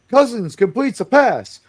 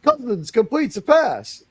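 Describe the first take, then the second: First: It is said slowly with solemn weight. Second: It is said in amazed, disbelieving wonder. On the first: "with the gravitas it deserves" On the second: "Stunned disbelief"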